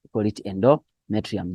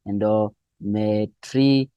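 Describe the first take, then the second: First: Said in the usual way. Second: Slow, separated syllables in "endometrium". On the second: Shown as a demonstration. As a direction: sound out "endometrium" slowly for students. Teacher breaks down a new term.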